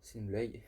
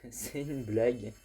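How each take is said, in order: First: Said in the usual way. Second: Slow, louder, laughing through the words; laughing disbelief. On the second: Real, not acted. Gamer laughing in disbelief after dying near the end. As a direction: drag it out laughing at your bad luck.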